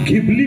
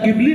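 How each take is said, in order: First: The word begins with a breathy gh sound. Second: The word begins with a plain g sound. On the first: "या ट्रेंडचे तीन उच्चार" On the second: "या ट्रेंडचे तीन उच्चार"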